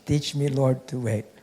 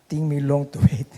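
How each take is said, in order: First: Teach and Lord are pronounced clearly and fully. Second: Teach and Lord come out as ting and long.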